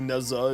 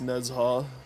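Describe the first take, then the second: First: The middle consonant is a plain z sound. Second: The middle consonant is a zh sound. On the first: The speaker calls it wrong. "it's not technically Neza" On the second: The speaker calls it right. "it's Nezha"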